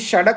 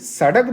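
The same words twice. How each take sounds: First: A consonant is made at a shifted place. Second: Every consonant is made at its standard place. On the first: The speaker calls it wrong. "सड़क क्यों बोल रहा है?" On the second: The speaker calls it right. "अरे भाई सड़क बोलो"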